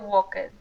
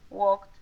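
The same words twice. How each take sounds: First: The ending is said as a separate ed syllable. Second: The ending is said as a single d sound. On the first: The speaker calls it wrong. "que no se pronuncia ed, ¿sí? No se dice walked" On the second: The speaker calls it right. "como una D, eh, no la E"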